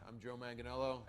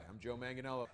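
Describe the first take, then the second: Both takes have the same delivery.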